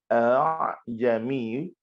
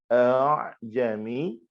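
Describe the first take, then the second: The two takes are said the same way.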